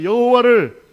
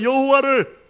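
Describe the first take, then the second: First: Very loud, high rallying shout. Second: Loud, high call for the congregation to repeat; 따라 외치도록 선창. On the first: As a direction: belt it out for the congregation to echo. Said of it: "크게 따라하세요". (아주 크게 외치는 선창) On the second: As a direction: lead the response in a raised voice. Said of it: "따라합시다". (따라 하라고 높고 크게 선창) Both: Shown as a demonstration.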